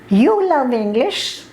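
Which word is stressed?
you. The stress falls on the word you. The listener seems an unlikely person to love it. "it means you are such an idiot. How can you love English?"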